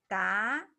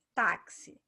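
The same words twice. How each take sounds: First: "táxi" broken into a loud, drawn-out ta... then xi; syllable by syllable. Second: Said in the usual way. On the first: Shown as a demonstration. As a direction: say "táxi" with a long first syllable and a gap before the second. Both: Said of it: "São duas sílabas também".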